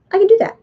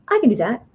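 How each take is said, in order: First: Much higher and louder, eager burst; excited. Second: Said in the usual way. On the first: Acted. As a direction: shout it out like an eager kid. Childlike gusto, repeated declaration.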